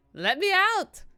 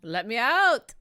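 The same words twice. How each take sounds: First: Shrill-high louder repeat of the yell; comic high-pitched cry to escape; higher mock shout. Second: Loud demanding yell; hammed-up plea to escape; mock shout. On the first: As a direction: pitch the yell way up in exaggerated desperation. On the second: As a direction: shout to be let out. Yelling to escape the game map.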